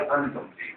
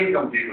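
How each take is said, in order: First: The word begins with an 'an' sound. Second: The word begins with an 'in' sound. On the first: The speaker calls it wrong. "एक लफ्ज मैंने इस्तेमाल किया" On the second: The speaker calls it right. "ये लफ्ज वाकई इनकम्प्लीट होता है"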